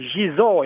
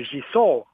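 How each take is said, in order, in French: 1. La consonne du milieu est voisée, comme z. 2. La consonne du milieu est sourde, comme s. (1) "Il y a un S entre deux voyelles" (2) "et pas Gisor"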